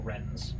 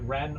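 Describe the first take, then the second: First: The word ends with an S sound. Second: The word ends without an S sound. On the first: "Is it Ren or Rens?" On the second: "I think the S on the end is silent"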